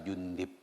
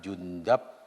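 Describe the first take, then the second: First: The vowel before the final b is i. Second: The vowel before the final b is a. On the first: "ada tiga wajah membacanya" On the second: "ada tiga wajah membacanya"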